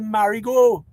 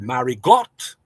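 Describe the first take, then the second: First: The name is pronounced the French way. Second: The name is pronounced the English way. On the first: It is the form others expect from French Creole. "why you all in Dominica don't say Marigot?" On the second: It reflects settlers from English-speaking islands. "they said Marigot because they are from the English speaking Caribbean"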